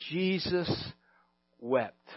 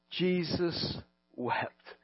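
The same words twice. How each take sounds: First: Jesus wept, softer and lower, hushed; hushed reverence. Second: Jesus wept, very slow, much softer; slow hushed. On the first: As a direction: let it drop into a hush. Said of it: "shortest Scripture verse". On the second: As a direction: linger on each word, barely there. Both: Shown as a demonstration.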